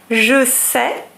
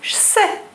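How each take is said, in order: First: The vowel of je is fully pronounced. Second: The vowel of je is dropped.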